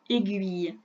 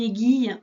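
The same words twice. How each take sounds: First: The U sound after the G is pronounced. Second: The U sound after the G is silent. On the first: The speaker calls it right. "on prononce le U" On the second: The speaker calls it wrong. "on ne dit pas une aiguille"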